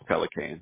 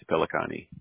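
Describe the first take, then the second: First: The name is said the Texas way. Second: The name is said the New York way. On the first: "In Texas, it's Pelicane" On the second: "In New York, it's Pelicani"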